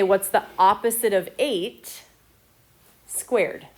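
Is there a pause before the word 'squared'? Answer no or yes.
yes. It has a pause before squared. The negative eight as a whole is squared. The speaker calls it right. "We're trying to say"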